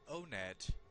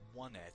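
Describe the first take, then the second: First: The name begins with an 'oh' sound. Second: The name begins with the word 'one'. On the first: "I call it O-Net" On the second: "I've heard others pronounce it one-net, as in the number one"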